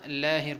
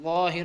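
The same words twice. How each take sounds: First: لاہر with a thin, open "aa"; correct reading. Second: ظاہر with a rounded, dark "o" vowel; wrong reading. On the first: Teacher giving learners the correct form, لاہر with thin "aa". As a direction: say لاہر lightly as "laa-hir". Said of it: "لاہر پڑھنا ہے". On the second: Teacher warning learners off a mistake, ظاہر with thick "o". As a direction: say ظاہر wrongly, as a heavy "loh-hir". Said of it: "ظاہر نہیں پڑھنا". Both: Shown as a demonstration.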